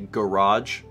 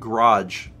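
First: The first vowel is clearly pronounced. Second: The first vowel is dropped or reduced. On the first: "pronounce the extra A in there" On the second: "a pretty normal way of saying that"

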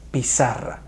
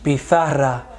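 First: The z is sounded like s. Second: The z is sounded like th. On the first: The speaker calls it right. "Lo correcto es decir" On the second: The speaker calls it wrong. "ni decimos pizarra"

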